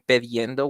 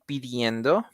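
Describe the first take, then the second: First: The first vowel sounds like e. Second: The first vowel sounds like i. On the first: The speaker calls it wrong. "which is another thing that is also weird" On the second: The speaker calls it right. "you will say pidiendo"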